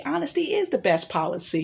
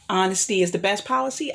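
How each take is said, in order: First: "is" lifted in pitch to affirm it; stress on IS. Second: Said in the usual way. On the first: Shown as a demonstration. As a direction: lean on "is", confirming the saying. Affirms the saying just quoted.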